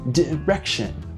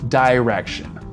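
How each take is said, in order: First: The first vowel sounds like short 'ih'. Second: The first vowel sounds like the word 'eye'. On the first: "But in British English, well, it's a different sound. It's a I sound" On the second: "Americans tend to say I, like the letter I"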